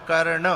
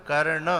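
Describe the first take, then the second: No difference in how they are said.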